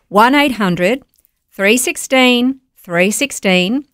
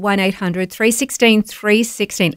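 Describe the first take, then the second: First: The number is said slowly. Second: The number is said fast.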